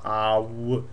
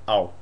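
First: The vowel is drawn out like two sounds. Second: The vowel glides quickly as one sound. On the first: The speaker calls it wrong. "you don't really pronounce like a double. You don't go ow" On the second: The speaker calls it right. "It's like ow. Quick"

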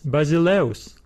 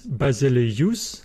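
First: The final diphthong is said as one sound. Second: The final diphthong is split into two vowels. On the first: The speaker calls it right. "We pronounce it as basileus" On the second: The speaker calls it wrong. "we do not pronounce this word as basileus"

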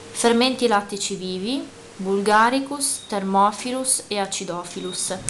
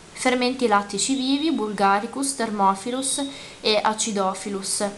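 The two takes are said the same way.

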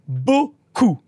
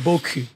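First: The word ends with an 'oo' vowel. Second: The word ends with a French 'u' vowel. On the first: The word means a lot. The speaker calls it right. "So just say beaucoup" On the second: The words mean nice backside. The speaker calls it wrong. "not beaucoup. ... it means nice ass"

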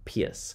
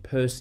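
First: The name sounds like the word 'pierce'. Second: The name does not sound like 'pierce'. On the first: The speaker calls it wrong. "the way it's spelled you want to say Pierce" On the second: The speaker calls it right. "you pronounce his last name Peirce"

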